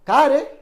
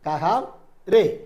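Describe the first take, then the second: First: The middle h sound is dropped entirely. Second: The middle h sound is fully pronounced. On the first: This is how it is said in conversation. "ഹാം അവിടെ ഇല്ല, വർത്താനം പറയുമ്പോൾ ഉണ്ടാവില്ല" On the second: This is the full written form. "മറ്റൊരു വാക്കാണ് കഹാം രേ"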